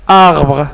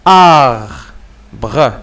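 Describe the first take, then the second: First: Said in the usual way. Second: "Arbre" as two separate sounds, "ar... bre"; split into syllables. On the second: Shown as a demonstration. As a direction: hold a long "ar", pause, then "bre". (« Arbre » prononcé syllabe par syllabe, « ar… bre ») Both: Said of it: "Chaque syllabe عندها un son".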